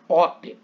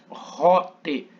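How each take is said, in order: First: The word begins directly with a vowel. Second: The word begins with a strong R-like sound. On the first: The speaker calls it wrong. "eu não falo ote" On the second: The speaker calls it right. "mas rote"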